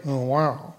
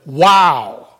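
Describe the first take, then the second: First: Low, soft, unimpressed "oh wow"; underplayed sarcastic reaction. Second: Loud, punched exclamation of amazement; big emphatic "wow". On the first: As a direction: say it with no enthusiasm at all. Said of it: "if you're being sarcastic". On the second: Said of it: "has emphasis. It's a, it's like". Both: Shown as a demonstration.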